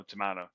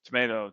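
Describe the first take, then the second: First: Tomato said "to-MAH-to". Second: Tomato said "to-MAY-to". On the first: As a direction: say tomato with an open AH in the middle. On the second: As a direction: say Tomato with a long AY in the middle. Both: Shown as a demonstration. Tomato, tomato idiom, two pronunciations.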